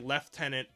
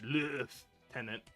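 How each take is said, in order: First: It is said with a British pronunciation. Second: It is said with a French pronunciation. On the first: "the British say lieutenant" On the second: "it originates from the the French lieutenant"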